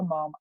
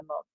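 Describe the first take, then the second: First: 'mom' with an open American ah vowel. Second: 'mum' with a short British uh vowel. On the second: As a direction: say 'mum' the English way. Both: Retold or imitated. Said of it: "certain things all my kids say".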